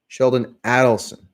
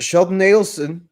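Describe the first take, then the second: First: Adelson begins with the vowel of 'add'. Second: Adelson begins with the vowel of 'aid'. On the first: The speaker calls it right. "it's actually Sheldon Adelson" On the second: The speaker calls it wrong. "easy to mispronounce"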